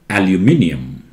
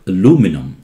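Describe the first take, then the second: First: British pronunciation, with the extra 'i' syllable. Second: American pronunciation, without the extra 'i' syllable. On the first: "British call it aluminium" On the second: "Americans call it aluminum, and this I is missing in America"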